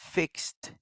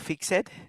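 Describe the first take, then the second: First: The ending is a short t sound, 'fikst'. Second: The ending is an extra syllable, like 'fix-id'. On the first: The speaker calls it right. "you have to do the xt" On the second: The speaker calls it wrong. "No, no"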